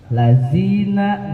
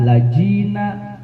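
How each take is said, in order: First: The middle consonant is a 'z' sound. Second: The middle consonant is a 'j' sound. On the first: "ladzina jadi lazina" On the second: "ladzina jadi lazina, lajina"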